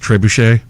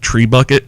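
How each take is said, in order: First: The word ends with a 'shay' sound. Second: The word ends with a 'bucket' sound. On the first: The speaker calls it right. "I know that it's pronounced trebuchet" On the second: The speaker calls it wrong. "I would call it tree bucket because that's how it kind of looks"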